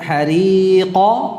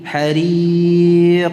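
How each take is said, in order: First: The final qaf is followed by an a-like vowel. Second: The word ends cleanly on the final consonant. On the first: The speaker calls it wrong. "bukan hariqa" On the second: The speaker calls it right. "tetapi hariq"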